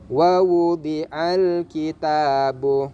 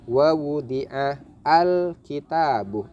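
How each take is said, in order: First: The 'al' is merged into the preceding word. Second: The 'al' is pronounced with its own separate 'a'. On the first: The speaker calls it right. "Jadi cara bacanya" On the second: The speaker calls it wrong. "tidak boleh dibaca"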